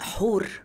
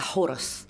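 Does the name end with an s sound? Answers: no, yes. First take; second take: no; yes. First: The name ends without a final s sound. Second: The name ends with a final s sound. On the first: This is the original Egyptian form of the name. "مش النطق المصري" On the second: This is the Greek form of the name. "النطق اليوناني لأساميهم"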